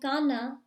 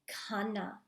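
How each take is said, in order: First: The k sound has no breathy h after it. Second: The k sound has a breathy h after it. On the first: The speaker calls it wrong. "I'm not saying kana" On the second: The speaker calls it right. "enunciating that H after the K"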